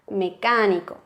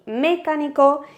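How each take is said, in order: First: The stress falls on the syllable ca. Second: The stress falls on a syllable other than ca. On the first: The speaker calls it right. "al pronunciarlo decimos mecánico" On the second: The speaker calls it wrong. "no decimos ni mecánico"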